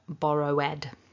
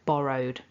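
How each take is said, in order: First: The ending is an extra 'id' syllable. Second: The ending is just a 'd' sound. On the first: The speaker calls it wrong. "So it's not borrowed, for example. That would be a mistake" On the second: The speaker calls it right. "it's just a d that we add to the end of the base form borrow"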